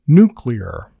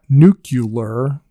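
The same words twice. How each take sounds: First: The word is said with no extra middle sound. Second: The word has an extra 'you' sound inside. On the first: The speaker calls it right. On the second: The speaker calls it wrong.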